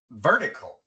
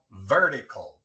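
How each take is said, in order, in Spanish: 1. La t suena como una r rápida, de un solo toque. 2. La t suena como una r rápida, de un solo toque.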